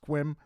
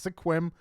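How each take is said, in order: First: The first vowel is left out entirely. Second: The first vowel is sounded as a syllable. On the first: The speaker calls it right. "you don't pronounce the E, it's just Sequim" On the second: The speaker calls it wrong. "I used to say it's Sequim"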